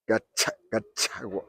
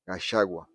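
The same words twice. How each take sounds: First: The middle consonant sounds like tch. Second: The middle consonant sounds like sh. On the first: This is how people from Nyeri say it. "they pronounce it as if it is a T C H" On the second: This is how Kikuyus from Kiambu and Murang'a say it. "Kikuyus from Kiambu and Murang'a pronounce it as Gachagua, as if it is S H"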